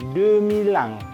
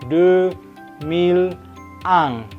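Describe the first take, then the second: First: The words run together quickly without breaks. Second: Each word is said slowly and separately. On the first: A native speaker is speaking. "kalau natif karena dia ngomongnya sudah cepat" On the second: A beginner is speaking. "Kalau orang asing baru belajar ya mau pelan-pelan"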